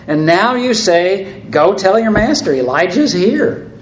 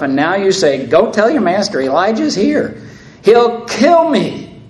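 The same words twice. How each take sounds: First: Raised, slowed disbelief quoting the order; incredulous plea. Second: The second time, rising to real panic; desperate repeat. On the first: Obadiah balks at telling Ahab Elijah is here, incredulous. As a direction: hold up the words as unthinkable. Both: Acted. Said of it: "he repeats himself".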